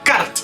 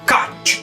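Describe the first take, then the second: First: The word ends with separate r and t sounds. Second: The word ends with a ch-like sound. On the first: The speaker calls it wrong. "esta palabra no se pronunciaría cart" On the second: The speaker calls it right. "se pronunciaría karch"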